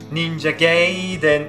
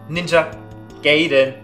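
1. Der Name wird maßlos übertrieben ausgesprochen. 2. Der Name wird schlicht, ganz normal ausgesprochen. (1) "wo der Typ dann so richtig, richtig übertreibt" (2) "Normally they say Ninja Gaiden"

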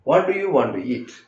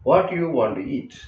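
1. "do" എന്ന വാക്ക് വ്യക്തമായി ഉച്ചരിക്കുന്നു. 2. "do" എന്ന വാക്ക് വിട്ടുപോകുന്നു.

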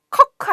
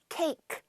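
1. 모음은 짧은 'uh' 소리예요. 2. 모음은 미끄러지는 'ay' 소리예요. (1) "커크 아니죠" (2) "이 저기 A 부분이 에이죠"

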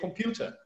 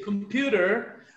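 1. Ela é dita com sotaque britânico. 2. Ela é dita com sotaque americano. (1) "mais puxado para o British, que seria computer" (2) "American English. They would say computer"

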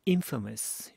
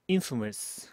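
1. 강세는 첫 번째 음절에 있어요. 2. 강세는 첫 번째 음절에 있어요.

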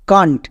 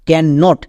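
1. এটা একটি সংকুচিত শব্দ হিসেবে বলা হয়। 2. এটা দুটি আলাদা শব্দ হিসেবে বলা হয়। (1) "একসঙ্গে উচ্চারণ করব কান্ট" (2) "একে আমরা আবার ক্যান নট বলবো না"

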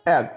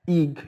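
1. الحرف صوته قصير ومفتوح 'e'. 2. الحرف صوته طويل ومنزلق 'ay'. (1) "لا هي egg egg egg" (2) "ما بنقولش ايج ايج"

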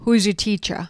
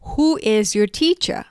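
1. พูดเร็ว โดย who is ถูกย่อ 2. พูดทุกคำเต็มเสียงและช้า

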